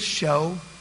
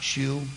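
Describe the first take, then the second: First: The word ends in an 'oh' vowel. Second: The word ends in an 'oo' vowel. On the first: The speaker calls it right. "it's show" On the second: The speaker calls it wrong. "it's not shoe"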